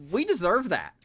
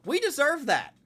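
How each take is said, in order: First: Louder, higher, bitter admission; sharp, loud self-reproach; frustrated outburst. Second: Much higher and louder, almost a yelp; high, loud exasperated repeat; exasperated cry. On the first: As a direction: own the loss out loud. Frustrated fan rant. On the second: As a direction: throw it up to the ceiling in frustration. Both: Real, not acted.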